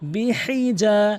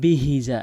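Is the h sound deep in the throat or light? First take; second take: deep; light. First: The h sound is deep and from the throat. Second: The h sound is light and breathy. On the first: The speaker calls it right. "অবশ্যই আপনি বড় হা এনে উচ্চারণ করবেন" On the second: The speaker calls it wrong. "বিহিজা ছোট হা এনে উচ্চারণ করে"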